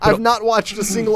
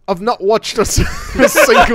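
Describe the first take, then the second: First: It is spoken in the speaker's ordinary accent. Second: It is spoken in a put-on British accent.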